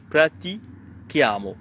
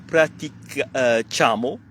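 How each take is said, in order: First: The consonant after prati is a hard k. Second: The consonant after prati is not the hard k. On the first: The speaker calls it right. "c'est pratichiamo" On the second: The speaker calls it wrong. "C'est pas praticamo"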